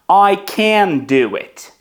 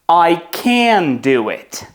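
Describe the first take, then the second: First: The stress falls on the word can. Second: The same.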